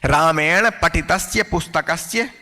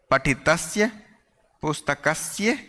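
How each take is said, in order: First: Slow, even reading of the whole phrase. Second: पठितस्य and पुस्तकस्य each said alone, set apart by pauses and softer; single out पठितस्य, pause, then पुस्तकस्य, quieter; word by word. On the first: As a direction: read the phrase through once at a steady pace. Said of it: "teacher reads the new example". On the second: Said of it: "teacher repeats the words singly". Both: Shown as a demonstration.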